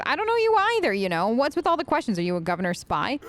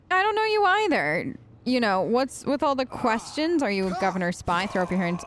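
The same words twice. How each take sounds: First: Glare and demand it; menacing. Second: Said in the usual way. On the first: Shown as a demonstration. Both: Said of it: "flash a menacing gaze".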